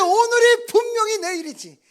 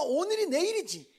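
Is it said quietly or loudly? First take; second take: loudly; quietly. First: It is said loudly, with excited fuss. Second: It is said at a normal, quieter volume.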